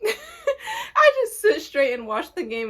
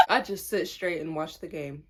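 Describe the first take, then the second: First: Louder, slower, laughing through it; breaking into laughter mid-line. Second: Said in the usual way. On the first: Real, not acted. Repeats line while laughing. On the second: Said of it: "repeats it laughing".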